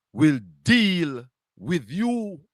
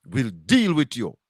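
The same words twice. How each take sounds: First: "will deal with you" drawn out very slowly, each word weighted; slow solemn warning. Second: Said in the usual way. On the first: Real, not acted. Host warns the critic that the Almighty God will judge him, slow and solemn.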